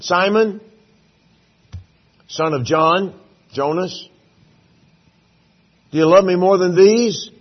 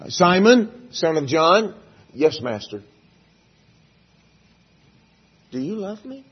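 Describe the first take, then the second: First: Jesus calling out. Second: Jesus asking again. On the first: Jesus calling Peter by name. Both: Acted.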